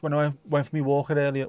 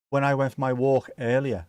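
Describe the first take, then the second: First: "walker" said for walk, an extra -er on the end; tongue slip "walker" instead of "walk". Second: Said in the usual way. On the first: Real, not acted. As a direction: say "walker" where "walk" belongs. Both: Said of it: "which is almost walker".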